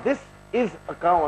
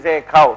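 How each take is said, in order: First: Each word is said separately and clearly. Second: The words are stretched and run together. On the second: "they stretch the word"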